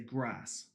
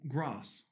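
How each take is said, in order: First: It is said in a rural countryside accent. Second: It is said in a posh Queen's English accent. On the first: The speaker sounds common. The speaker calls it wrong. "I was from the countryside in Gloucestershire... it just sounded very common" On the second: The speaker sounds posh. The speaker calls it right. "tried to teach me the Queen's English"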